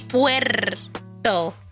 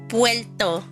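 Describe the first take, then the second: First: The r sound is fully pronounced. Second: The r sound is relaxed and lazy. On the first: The speaker calls it right. "It's supposed to be Puerto" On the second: The speaker calls it wrong. "sometimes I'm lazy and I say Puerto"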